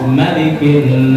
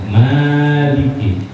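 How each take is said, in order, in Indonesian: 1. Vokal pertamanya dibaca pendek. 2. Vokal pertamanya dibaca panjang. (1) "surah An-Nas mah malikinya pendek" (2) "Maknya panjang"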